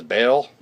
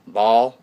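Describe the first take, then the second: First: Baal said like "bale"; Baal, one syllable with an "ay" vowel. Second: Baal said like "ball"; Baal, one syllable rhyming with "tall". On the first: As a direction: say Baal with a long A, rhyming with "pale". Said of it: "You can pronounce it as". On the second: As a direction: say Baal with an open "aw" vowel. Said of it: "six or seven different ways of pronouncing". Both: Shown as a demonstration.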